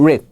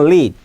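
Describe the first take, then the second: First: "read" as "rid", with short i and R; "read" clipped to "rid", R not L; English R sound. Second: "lid" begun with a clear L; "lid" with L and a short i; English L sound. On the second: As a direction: say "lid" with tongue tip on the ridge. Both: Shown as a demonstration. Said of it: "이게 영어의 R과 L예요".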